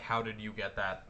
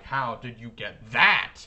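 First: It is said smoothly without a pause. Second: There is a dramatic pause after "How".

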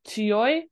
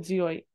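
First: The word begins with a ts sound. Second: The word begins with a z sound. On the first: The word stands on its own. "normally pronounced as tsuyoi" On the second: The word is joined to a preceding word in a compound. "So it's pronounced with a Z sound"

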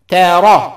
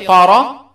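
First: The t sound is light and plain. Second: The t sound is heavy and emphatic. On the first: The speaker calls it right. "there is no طا. it's تا" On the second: The speaker calls it wrong. "don't say طارة"

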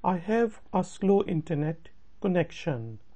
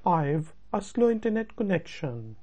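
First: 'I have' is said as two full words. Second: 'I have' is contracted into one syllable, 'I've'.

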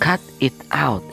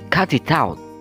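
First: The words are said slowly and separately. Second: The words are joined smoothly into one unit. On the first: "itu jika pelan" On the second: "Ketika dibaca linking, digabungkan"

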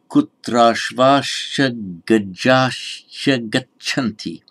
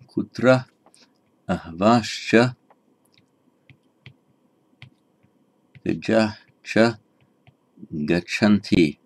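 First: The words merge with vowels and endings changed. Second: The words are kept separate without sound merging. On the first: "but it becomes kutrashvascha gajahcha gacchanti" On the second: "Without sandhi"

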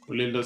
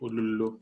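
First: The later vowels are i and o sounds. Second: The later vowels are u sounds. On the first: This is the form learned growing up. "But I think it is ulilo" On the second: Some people say the word this way. "if you pronounce it like ululu"

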